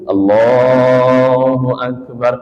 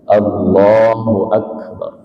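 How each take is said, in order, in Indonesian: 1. Frasanya panjang dan ditarik. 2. Frasanya pendek dan cepat. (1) "Kalau takbirnya begitu, orang ngiranya bangun lagi untuk rakaat ketiga" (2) "pendek saja"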